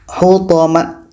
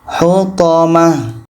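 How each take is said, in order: First: The word ends with a t sound. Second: The word ends with an h sound. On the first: The speaker calls it wrong. "Hutamat tidak boleh" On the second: The speaker calls it right. "Hutamah menjadi huruf H yang berbaris sukun atau mati"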